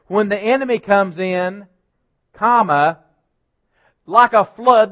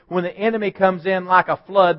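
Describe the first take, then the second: First: There is a clear break after 'comes in'. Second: The phrase runs on with no break after 'in'. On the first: "Read it like this" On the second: "most of us will read this"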